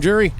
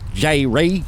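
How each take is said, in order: First: The name sounds blended, like the word jury. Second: The name is split into two separate parts. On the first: "One of them is jury, like I'm on the jury" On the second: "the other one is J. Ray"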